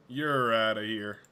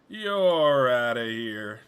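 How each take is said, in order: First: Drawn-out dismissal, usual volume; first, milder umpire-style send-off; mock ejection call. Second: Very drawn-out, loud dismissal; big playful send-off, sliding down in pitch; hammed-up ejection call. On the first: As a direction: slowly send them packing. Ousting someone in mock umpire style. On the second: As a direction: stretch it out like a mock umpire. Repeats the ejection call, bigger.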